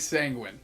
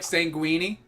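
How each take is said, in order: First: The word ends without an 'ee' vowel. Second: The word ends with an 'ee' vowel, like linguine. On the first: The speaker calls it right. "I've been saying sanguine" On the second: The speaker calls it wrong. "Is it like sanguini?"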